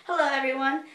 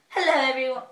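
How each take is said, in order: First: Said in the usual way. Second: Put-on a light British accent on the greeting; a half-joking British hello. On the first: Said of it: "Not really". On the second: British accent greeting her viewers. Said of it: "I said that with, like, a British accent".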